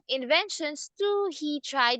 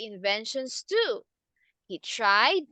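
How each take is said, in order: First: The words run on without a break. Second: A sentence break comes after 'too'. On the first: The sentence seems to continue into the next one. The speaker calls it wrong. "Do not say inventions too he tried. That is not correct" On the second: One sentence ends and a new one begins. The speaker calls it right. "The correct one"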